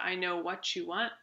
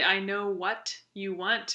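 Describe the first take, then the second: First: What and you blend together into one sound. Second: What and you are said as separate words. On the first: "in casual" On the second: "in careful speech"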